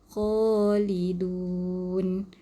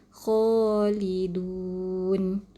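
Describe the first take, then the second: First: The word ends on a stopped final consonant. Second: The word ends on a stopped final consonant.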